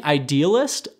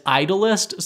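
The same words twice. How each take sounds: First: "idealist" with stress on the second syllable, eye-DEE-uh-list; idealist pronunciation. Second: "idolist" with stress up front, EYE-dul-ist; misheard as idolist. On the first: Host correcting a misheard word, "idealist" stressed on DEE. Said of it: "he was saying idealist, but I heard it as idolist". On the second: Host showing what was misheard, "idolist" stressed on EYE. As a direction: say "idolist" like idol plus -ist. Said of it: "but I heard it as idolist". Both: Shown as a demonstration.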